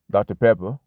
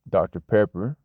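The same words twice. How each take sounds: First: The final R of Pepper is dropped. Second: The final R of Pepper is pronounced. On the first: "which you're not pronouncing the R" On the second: "which is how a lot of people say it"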